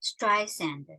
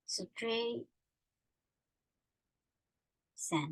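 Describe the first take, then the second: First: "[name]" run together in one smooth word; said whole. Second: "Stray-" and "Sand" as two separate beats, quiet; syllables split apart. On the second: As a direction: break "Stray-" from "Sand" with a pause. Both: Shown as a demonstration.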